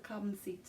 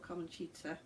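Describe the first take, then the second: First: The c is said as a soft s sound. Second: The c is said as a ch sound. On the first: "with a soft C" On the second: "or a ch sound"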